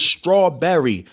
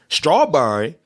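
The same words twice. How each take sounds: First: STRAWBERRY slow, with a clear "berry"; mock-proper, measured STRAWBERRY, every syllable clear; prim and proper. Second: STRAWBERRY mimicked as "straw-burry"; mocking Baltimore pronunciation. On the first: Cousin correcting country relatives, prim "straw-berry" STRAWBERRY. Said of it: "all prim and proper". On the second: Cousin teasing Baltimore relatives, mocking "straw-burry" STRAWBERRY. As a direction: tease with STRAWBERRY squashed to "burry". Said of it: "He made fun of us".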